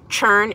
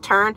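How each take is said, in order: First: The word begins with a 'ch' sound. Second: The word begins with a clear 't' sound. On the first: The speaker calls it wrong. "It's not churn" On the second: The speaker calls it right. "it's turn"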